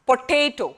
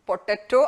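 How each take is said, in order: First: The middle syllable has an 'ay' vowel. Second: The middle syllable has an 'ah' vowel. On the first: The speaker calls it right. "പൊട്ടേറ്റോ എന്ന് പറയണം" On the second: The speaker calls it wrong. "പൊട്ടാറ്റോ ആണോ?"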